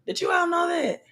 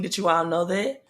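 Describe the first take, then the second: First: Excited shout. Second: Said in the usual way. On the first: Real, not acted. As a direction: call it out to the whole stream, amazed. Repeats question to live viewers.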